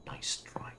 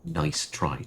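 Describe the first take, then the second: First: Nice try whispered and much softer; whispered repeat. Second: Said in the usual way. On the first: Real, not acted. Streamer mocking the game's event, whispered. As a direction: breathe Nice try as an aside.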